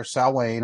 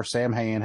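First: "Salwayne" said SOW-wayne; "Salwayne", the name Samhain with a silent m. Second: "Sam Hain" said as spelled, SAM-hayn; "Sam Hain" with the m fully sounded; Samhain as Sam Hain. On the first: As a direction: say "Salwayne" as two syllables, first rhyming with cow. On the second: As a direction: say "Sam Hain" like two English names. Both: Shown as a demonstration. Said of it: "depending on how you wanna pronounce it".

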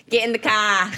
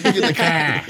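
First: A bad Boston accent. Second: Echoing a bad Boston accent. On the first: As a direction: bark it like a Boston tough guy. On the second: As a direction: shout it back Boston style. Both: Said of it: "I can't do a Boston accent".

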